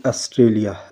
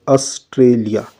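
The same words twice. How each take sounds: First: Said in the usual way. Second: Australia slowed, TRA syllable pressed hard; stress on TRA. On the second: Shown as a demonstration. Teacher showing the class the stress, slow and pressed. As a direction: lean on the T in Australia, drawn out. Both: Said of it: "so here stress come on the word T".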